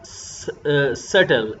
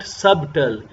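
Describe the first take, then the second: First: The b sound is silent. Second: The b sound is pronounced. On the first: The speaker calls it right. "ये होगा सटल" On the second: The speaker calls it wrong. "नट सबटल"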